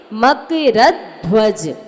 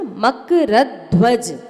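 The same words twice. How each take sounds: First: मकरध्वज slowed, ध्व doubled in weight but said once; slow model of मकरध्वज with a heavy dhv; slow careful model. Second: मकरध्वज with the joined dhv pressed, makara-dhvaj; मकरध्वज with a firm dhv, said once; stress on the half dh. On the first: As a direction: press ध्व hard in मकरध्वज, slowly. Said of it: "इसलिए मकरध्वज". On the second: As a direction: lean on the ध्व cluster in मकरध्वज. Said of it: "आधे धा पर जोर देंगे". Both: Shown as a demonstration.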